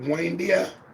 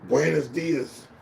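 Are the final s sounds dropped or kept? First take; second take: dropped; kept. First: The phrase is shortened with the final sounds dropped. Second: The phrase is said in full with its final sounds.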